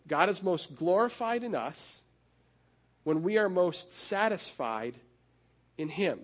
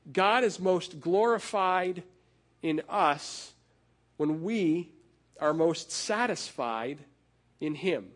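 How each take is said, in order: First: Said in the usual way. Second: Slow and weighty, with a pause between each phrase; slow, deliberate preacher's cadence; slow emphatic summary. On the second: Shown as a demonstration. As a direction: lay it down phrase by phrase, slowly. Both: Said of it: "he sums it up this way".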